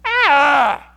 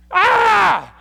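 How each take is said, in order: First: Loud re-enacted yell, less shrieky; manly yell. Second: Very high, loud re-enacted scream; startled yell. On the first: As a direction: cry out in fright with a manly voice. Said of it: "I had to get my manly voice in there". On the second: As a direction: yell as if jolted awake in fright. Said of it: "Let me yell for a moment. It scared me".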